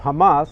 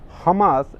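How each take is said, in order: First: It is said with a Western, anglicized pronunciation. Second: It is said with a Middle Eastern, Arabic pronunciation. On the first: "as you would find it pronounced in the Western discourse" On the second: "and Middle Eastern discourse"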